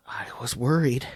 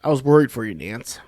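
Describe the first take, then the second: First: Breathy whisper, no voice. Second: Said in the usual way. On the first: Acted. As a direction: drop to a secret whisper. Whispered repeat of mock concern.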